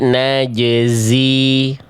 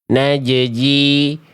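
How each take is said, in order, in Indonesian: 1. Bunyi j dan z dua-duanya jelas. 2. Bunyi z berubah jadi bunyi j. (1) "Clear bunyi zai-nya tanpa mengganggu jim sukunnya" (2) "zai-nya ke bawah jadi huruf jim"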